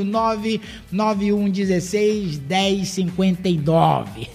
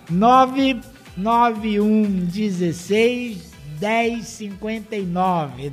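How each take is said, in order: First: The number is said fast. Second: The number is said slowly and calmly.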